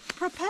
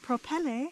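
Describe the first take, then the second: First: It is said in a plain everyday accent. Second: It is said in a put-on fancy accent.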